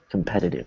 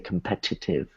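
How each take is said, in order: First: Both T sounds are weakened. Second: The T sounds are said fully. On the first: The speaker calls it right. "So they're both actually weakened" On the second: The speaker calls it wrong. "You don't say competitive"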